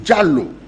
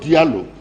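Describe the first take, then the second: First: The name begins with a J sound. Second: The name begins with a D sound. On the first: The speaker calls it right. "as far as I'm concerned, it is Jallo" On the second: The speaker calls it wrong. "and not Diallo"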